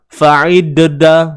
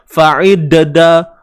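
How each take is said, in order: Both takes have the same delivery.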